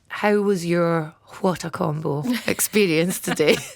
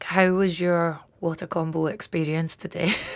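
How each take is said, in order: First: The words are spoken carefully, in a clear phone voice. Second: The words are spoken casually, without careful articulation. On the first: The speaker calls it right. "I'm going to use my phone voice" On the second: The speaker calls it wrong. "I just don't make any effort to like speak clearly"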